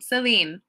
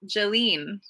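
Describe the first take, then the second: First: The name begins with an S sound. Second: The name begins with a J sound. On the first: This is the English way of saying it. "It's like a s- sound" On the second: This is the Turkish way of saying it. "if I was in Turkey, it would be like Jeline"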